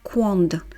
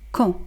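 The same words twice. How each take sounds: First: The final consonant is pronounced. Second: The final consonant is silent. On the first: The speaker calls it wrong. "on ne prononce pas la dernière consonne, on ne dit pas quand" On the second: The speaker calls it right. "On dit tout simplement quand"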